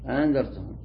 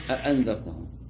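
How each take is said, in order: First: The second glottal stop is softened, half-pronounced. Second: Both glottal stops are pronounced fully. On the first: "بحركة خفيفة بين الهمزة وبين الألف" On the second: "فتقرأ بتحقيق الهمزة الأولى وتحقيق الهمزة الثانية"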